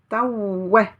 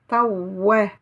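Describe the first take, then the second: The two takes are said the same way.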